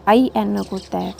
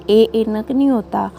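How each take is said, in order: First: आई said as a long "ai" glide in "आई एनक"; right sound demo. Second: ए said as a plain "e" in "ए एनक"; wrong "e" sound in "ए एनक"; wrong sound demo. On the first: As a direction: open "आई" into an "ai" sound. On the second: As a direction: say "ए एनक" with a short e vowel. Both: Shown as a demonstration.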